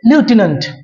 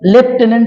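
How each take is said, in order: First: The first syllable sounds like 'lyoo', without f. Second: The first syllable sounds like 'lef', with f. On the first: This is how the English originally say it. "Original উচ্চারণ" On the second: This is how Bengalis usually know it. "আমরা সাধারণত বাঙালিরা এর উচ্চারণটা লেফটেন্যান্ট হিসেবেই জানি"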